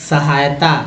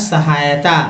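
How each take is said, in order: Both takes have the same delivery.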